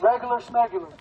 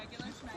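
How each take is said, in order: First: Said in the usual way. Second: Whispered to herself; a whispered playful rhyme; whispered aside. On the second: Real, not acted. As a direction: breathe it out as a private joke.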